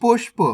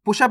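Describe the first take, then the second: First: पुष्प as one syllable, "pushp"; correct half-letter reading. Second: पुष्प opened up as "pu-shap"; wrong full-letter reading. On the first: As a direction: run sh straight into p in पुष्प. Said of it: "पुष्प नहीं पढ़ना". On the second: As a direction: put a vowel after sh in पुष्प. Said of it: "नहीं पढ़ना". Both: Shown as a demonstration.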